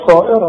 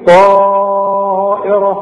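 First: The vowel is cut short. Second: The vowel is drawn out for several counts. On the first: The speaker calls it wrong. "ما قلتش طائره" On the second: The speaker calls it right. "شوف قلت ايه؟"

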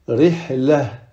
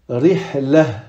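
No difference in how they are said.

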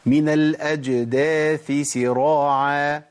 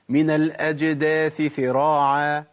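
First: The last word begins with an s sound. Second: The last word begins with a th sound. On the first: The speaker calls it right. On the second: The speaker calls it wrong.

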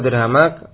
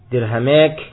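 First: The long vowel is an open 'a' sound. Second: The long vowel is tilted toward an 'e' sound.

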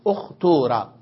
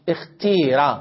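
First: The middle vowel is a long oo sound. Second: The middle vowel is a long ee sound. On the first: This follows the dialect with a pure waw. "على لغة إخلاص الواو" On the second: This follows the dialect with a pure kasra and ya. "على لغة إخلاص الكسر والياء"

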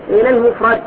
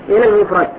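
No difference in how they are said.

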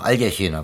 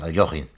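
First: The vowel after the L sounds like 'e'. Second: The vowel after the L sounds like 'o'. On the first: The speaker calls it wrong. "Manche sagen auch" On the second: The speaker calls it right. "das heißt aber richtig"

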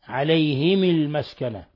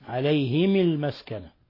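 No difference in how they are said.

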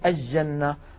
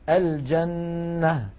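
First: The L is merged into a doubled J. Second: The L is clearly pronounced before the J. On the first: The speaker calls it wrong. "هذا لا يصح" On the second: The speaker calls it right. "لكن الفصحى أن نقول"

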